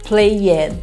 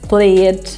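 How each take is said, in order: First: The ending is said as an extra syllable. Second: The ending adds no extra syllable. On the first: The speaker calls it wrong. "a gente tem mania de dizer ... E não é assim" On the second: The speaker calls it right. "prestar bem atenção nos sons do final"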